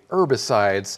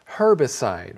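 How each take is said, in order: First: The word begins without an H sound. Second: The word begins with an H sound. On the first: This is the American way of saying it. "as Americans, we do say herbicides" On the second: This is how people in the UK say it. "you might hear the H sound at the beginning of that word"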